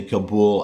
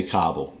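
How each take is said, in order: First: Kabul as kuh-BOOL; other people's pronunciation. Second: Kabul as KAH-bul; his chosen pronunciation. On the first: Quoting what people sometimes say, Kabul as kuh-BOOL. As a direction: stress the second syllable of Kabul. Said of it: "people will sometimes say". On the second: Reassuring viewers, Kabul as KAH-bul. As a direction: stress the first syllable of Kabul. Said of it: "I do say". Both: Shown as a demonstration.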